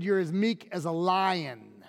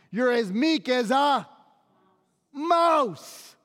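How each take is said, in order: First: Put-on understated, assured delivery of an old saying; measured quote. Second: Higher-pitched, incredulous mock saying; derisive quote. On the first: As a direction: settle evenly into "lion". Ancient saying answering the mouse one. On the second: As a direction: quote it high and emphatic, pausing before "mouse". Today's mousy saying set against lion.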